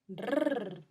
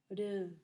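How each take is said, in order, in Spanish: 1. El sonido de la r es fuerte y enérgico. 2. El sonido de la r es suave y ligero. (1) "sonido fuerte" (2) "sonido suave"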